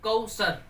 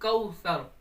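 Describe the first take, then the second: First: The middle consonant is a hissing s. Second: The middle consonant is a soft th. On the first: The speaker calls it wrong. "इसको सीन पढ़ जाते हैं" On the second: The speaker calls it right. "सीटी की आवाज नहीं आएगी"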